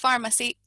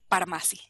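First: The ph is read as an f sound. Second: The ph is read as a p sound. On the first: The speaker calls it right. "esa P H la vamos a pronunciar como el sonido de la F" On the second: The speaker calls it wrong. "si tratáramos de leer como leemos en español, pues leeríamos pharmacy"

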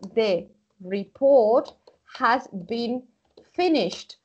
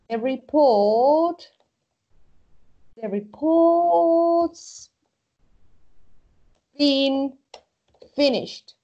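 First: The word has is said in full. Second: The word has is contracted onto report.

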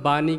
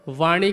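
First: The word begins with a b sound. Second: The word begins with a v sound. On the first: This is how people commonly say it. "हम बानी कहते हैं" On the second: This is the standard form. "वाणी की जगह पर"

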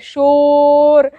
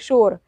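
First: The vowel is stretched out long. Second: The vowel is said quickly and short. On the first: The speaker calls it wrong. "अब बोलेंगे शोर, तो अच्छा नहीं लगेगा ना" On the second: The speaker calls it right. "एक बार बोला जाता है शोर"

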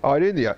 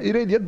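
First: The name is said in its original pronunciation. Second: The name is said with Turkish-adapted pronunciation. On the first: This is the correct pronunciation. "evet doğrusu okunuşu o" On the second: This is the practical, localized pronunciation. "daha böyle pratik. Daha böyle hani bize yakın olduğu için"

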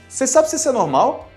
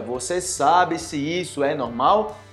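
First: Words are shortened and run together quickly. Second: Every word is said fully and clearly. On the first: "E eu falo abreviando como?" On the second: "Ou seja"

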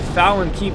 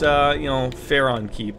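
First: The name has an L sound in the middle. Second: The name has an R sound in the middle. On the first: The speaker calls it wrong. "Not the Jimmy Fallon Keep" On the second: The speaker calls it right. "There we go"

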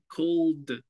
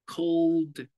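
First: The final d sound is strongly exaggerated. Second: The same.

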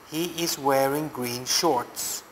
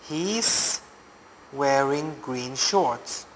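First: He is is said as two full words. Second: He is is contracted to one syllable. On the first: "He is" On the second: "same as he's"

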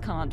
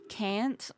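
First: It is said with a British-style vowel. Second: It is said with an American-style vowel. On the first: The speaker calls it right. "It's always can't for me" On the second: The speaker calls it wrong. "I can't say like can't. It it feels wrong when I say it"

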